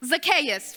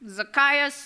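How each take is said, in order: First: Zacchaeus said zak-AY-us, stress on AY; correct pronunciation. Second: Zacchaeus said zak-EYE-us, like a guess; trying a pronunciation. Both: Shown as a demonstration. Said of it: "learn the right way to pronounce these names".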